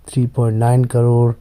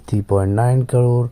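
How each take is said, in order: Both takes have the same delivery.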